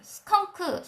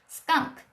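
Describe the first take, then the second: First: The word is said with three syllables. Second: The word is said with one syllable. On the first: The speaker calls it wrong. "삼음절로 읽으실 수 있잖아요" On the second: The speaker calls it right. "일음절이에요"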